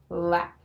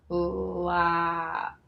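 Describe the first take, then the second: First: The word is said fast, sounds joined. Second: The word is said slowly, sounds stretched.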